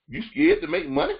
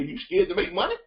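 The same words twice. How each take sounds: First: High disbelieving "You scared to make money?" with a rise; mock the idea in disbelief; incredulous. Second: Said in the usual way. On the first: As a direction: coach scoffing inwardly at the shy client, incredulous. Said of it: "I'm thinking to myself". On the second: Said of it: "My mind's like".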